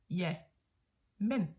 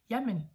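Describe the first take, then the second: First: There is a pause between the two words. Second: The two words run together without a pause. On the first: Yes, but. "like with a pause in between" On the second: Agreement combined with some objection. "as in one word, one word"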